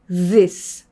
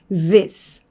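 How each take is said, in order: No difference in how they are said.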